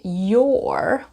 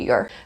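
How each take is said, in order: First: The word is said fully, with a clear vowel. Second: The word is said reduced, with a weak vowel. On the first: "very often your will turn into" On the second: "in spoken English, in connected speech"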